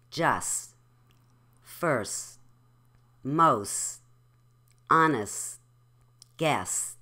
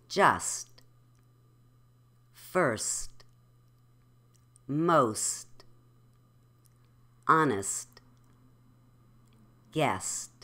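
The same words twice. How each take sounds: First: "Just, first, most, honest, guess" ending on S, no T; final T dropped. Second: "Just, first, most, honest, guest" each ending in a light T; final T pronounced. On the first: Teacher showing students the dropped T, final T left off. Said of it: "say these words without the T". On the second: Teacher modelling for repetition, final T sounded. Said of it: "say them with the T". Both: Shown as a demonstration.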